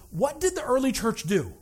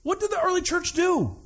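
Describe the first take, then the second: First: Said in the usual way. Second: Higher, emphatic repeat of the question. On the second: Shown as a demonstration. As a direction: ask it again, much higher. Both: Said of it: "repeated question".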